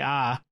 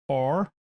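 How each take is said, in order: First: The letter is an open ah without r. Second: The letter ends with a clear r sound. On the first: "if I'm from Boston, I say ah" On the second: "I'm trying to say it correctly"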